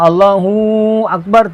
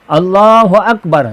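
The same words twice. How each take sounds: First: The hu syllable is drawn out long. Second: The hu syllable is kept short. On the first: It asks whether God is great. The speaker calls it wrong. "hu tu pula panjang. Allahu Akbar tidak sah" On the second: It states that God is great. The speaker calls it right. "Hu tu tak ada mat di situ"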